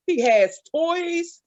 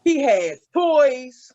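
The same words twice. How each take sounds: First: Slow emphasis. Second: Drawn out He has toys; heavy slow repetition. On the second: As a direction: stretch each word of "He has toys" out slowly. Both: Shown as a demonstration. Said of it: "repeated emphasis".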